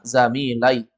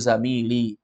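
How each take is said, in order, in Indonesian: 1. Vokal a ada sebelum ee di akhir. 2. Vokal i ada sebelum ee di akhir. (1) "Kalau dia fathah" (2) "cocok ya sukun itu sebelumnya baris bawah"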